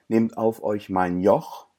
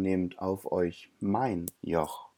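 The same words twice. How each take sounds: First: The stress falls on the word Joch. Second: The stress falls on the word mein. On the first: The speaker calls it wrong. "Es heißt ja eben nicht" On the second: The speaker calls it right. "nehmt statt eurem lieber meins"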